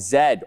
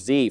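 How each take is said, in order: First: The letter is said the non-American way. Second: The letter is said the American way.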